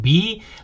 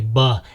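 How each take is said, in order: First: It is said as the letter name, like "bee". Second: It is said as the short sound "buh". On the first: The speaker calls it wrong. "instead of saying B like the insect" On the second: The speaker calls it right. "we say B as in butterfly"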